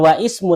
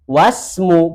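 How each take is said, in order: First: The 'i' is pronounced separately after 'wa'. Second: The 'i' is dropped, linking into 'wasmu'. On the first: The speaker calls it wrong. "bukan wa ismu" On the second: The speaker calls it right. "tapi was wasmul binti Zainabu"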